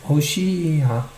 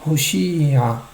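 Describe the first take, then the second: No difference in how they are said.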